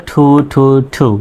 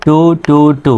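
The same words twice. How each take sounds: First: "ঠু" three times, puff of air after t; correct aspirated T. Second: "টু" three times, hard t with no puff; unaspirated T. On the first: Teacher reviews the correct way, "ঠু" aspirated. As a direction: repeat "ঠু" with an English aspirated t. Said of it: "সঠিক উচ্চারণ করলে". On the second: Teacher reviews the local way, "টু" unaspirated. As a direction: repeat "টু" with an unaspirated Bengali t. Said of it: "এই উচ্চারণগুলো আপনাদের বলে দিচ্ছি". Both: Shown as a demonstration.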